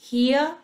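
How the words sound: It is said with a British accent. "a opção para o inglês britânico"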